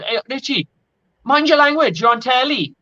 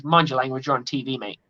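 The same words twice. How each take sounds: First: High, lilting Welsh referee telling-off; Welsh accent. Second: Said in the usual way. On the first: Retold or imitated. Welsh referee scolding the swearing captain mid-final, in a Welsh accent. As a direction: imitate a Welsh ref scolding, pitched well up. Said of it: "in his Welsh accent". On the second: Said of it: "roughly translates".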